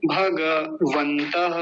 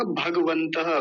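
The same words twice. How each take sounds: First: भगवन्तः slowly as bha-ga-van-ta-ha; correct full ga. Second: भगवन्तः run together as bhag-van-ta-ha; wrong half ga. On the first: Teacher giving the correct form, slow full-ga pronunciation. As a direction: sound every syllable of भगवन्तः, drawn out. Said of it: "सही है". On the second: Teacher showing the wrong way, half-ga mispronunciation. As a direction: drop the vowel after g in भगवन्तः. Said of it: "गलत उच्चारण होगा". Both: Shown as a demonstration.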